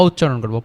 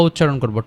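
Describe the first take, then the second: The two takes are said the same way.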